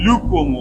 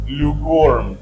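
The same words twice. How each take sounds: First: The main stress is on the first syllable. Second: The main stress is on the second syllable. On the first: The word comes before the noun it describes. "The main stress shifts to first syllable" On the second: The word comes after the noun it describes. "second syllable mean stress"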